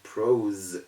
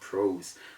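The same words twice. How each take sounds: First: The final consonant is a z sound. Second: The final consonant is an s sound. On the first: The speaker calls it right. "So we call it prose" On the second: The speaker calls it wrong. "instead of prose"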